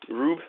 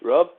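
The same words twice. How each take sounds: First: Rube with a long oo, rising like a question; trying out Rube as ROOB. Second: Testing Rub with the short vowel. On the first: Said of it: "you could say Rube". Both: Shown as a demonstration.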